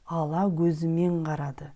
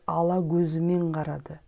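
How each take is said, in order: No difference in how they are said.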